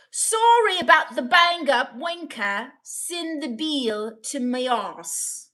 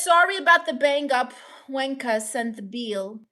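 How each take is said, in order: First: Drawn-out put-on Irish brogue; mock Irish accent. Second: Said in the usual way. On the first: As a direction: read it in a hammed-up Irish accent. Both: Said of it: "was that Irish?".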